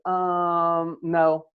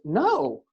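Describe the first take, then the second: First: A hesitant filler and pause come before no. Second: No is said at once, without hesitation.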